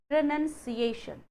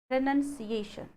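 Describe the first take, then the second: The two takes are said the same way.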